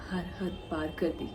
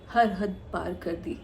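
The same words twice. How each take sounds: First: Soft, low echo falling away; hushed, downcast. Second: Slow, weighted confession at normal volume; slow, deliberate. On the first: Woman telling how far Atif went to leave her, soft and downcast. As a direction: let the voice sink quietly. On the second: Woman telling how far she went for Atif, slow and deliberate. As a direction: draw out each word deliberately. Recalls going all out for Atif. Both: Acted.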